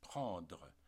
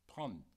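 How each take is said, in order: First: The final syllable is fully pronounced. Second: The word ends on the D sound.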